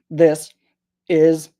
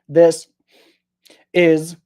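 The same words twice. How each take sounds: First: The two words are separated by a stop. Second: The two words are separated by a stop.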